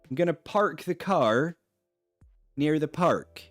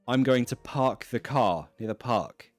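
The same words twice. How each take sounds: First: The R sounds after vowels are pronounced. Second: The R sounds after vowels are dropped. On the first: The speaker is from the southwest of England. "In the southwest of England, in Bristol, Bath, they will pronounce the R" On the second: The speaker is from London or elsewhere in England. "London, the rest of the country"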